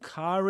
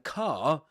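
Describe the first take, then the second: First: The final r sound is pronounced, linking to is. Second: The final r sound is silent. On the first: "only pronounce it when right after uh, comes a vowel sound" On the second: "they don't pronounce the r"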